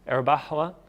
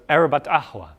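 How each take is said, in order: First: No t sound links the two words. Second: A t sound links the two words. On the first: "Would any of you guys leave out the T there?" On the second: "you have the T"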